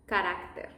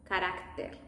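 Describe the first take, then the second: No difference in how they are said.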